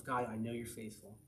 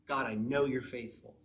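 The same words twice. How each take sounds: First: Soft, low murmured prayer; reminding oneself. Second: Firmer, stress on "know"; speaking it out. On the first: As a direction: say it quietly to yourself. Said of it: "you gotta remind yourself". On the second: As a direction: affirm it aloud, leaning on "know". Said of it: "you speak it out". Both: Acted.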